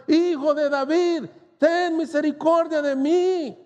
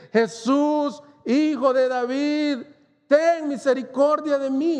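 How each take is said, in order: First: Higher, stretched plea, pushing harder; crying out louder. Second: Higher, pleading call, a shout kept in check; held-back cry for mercy. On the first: Blind man calling over the rebuking crowd, louder plea. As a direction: call over the crowd trying to hush him. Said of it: "pero él gritaba mucho más". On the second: Preacher voicing the blind man calling to Jesus, restrained plea. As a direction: cry out to Jesus but hold back the full scream. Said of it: "Yo no quiero gritar como él realmente gritó". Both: Retold or imitated.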